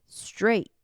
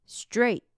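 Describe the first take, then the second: The two takes are said the same way.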